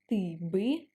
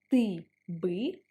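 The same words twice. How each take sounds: First: The two words are joined as one. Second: The two words are said apart.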